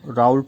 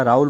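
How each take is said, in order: First: राउल्ट said raa-ool-t with a crisp final t; राउल्ट, closing with a clear t sound; Raoult with a t. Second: राउल said raa-ool with no final t; Raoult as Raul. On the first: Teacher giving the other way some say it, राउल्ट with the final t. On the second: Teacher naming the chemist for students, राउल without the t. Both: Shown as a demonstration. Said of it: "उच्चारण में भिन्नता है".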